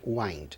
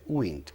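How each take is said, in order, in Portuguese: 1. É pronunciado com a pronúncia de verbo. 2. É pronunciado com a pronúncia de substantivo. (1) "Então é wind" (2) "Mas como substantivo é wind. A pronúncia é wind"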